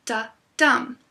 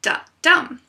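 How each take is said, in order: First: A slow iambic beat, "da" then a stressed "dum". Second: "Da-dum" run together, louder and higher, with a strong stress on "dum"; a loud joined "Da-dum" with the weight on "dum"; punchy iambic beat. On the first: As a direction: say "da" lightly, then hit "dum". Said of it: "an unstressed syllable followed by a stressed syllable". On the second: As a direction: tap out the beat boldly, "da" light and "dum" hard. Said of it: "The rhythm is created by the use of stress". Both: Shown as a demonstration.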